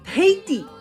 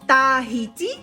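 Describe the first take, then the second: First: It sounds the way local people say it. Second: It follows the spelling of the word. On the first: "if you want to sound very much like the locals" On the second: "which is the written pronunciation"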